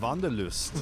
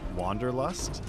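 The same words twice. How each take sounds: First: It is said in a heavy German accent. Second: It is said in the speaker's ordinary accent.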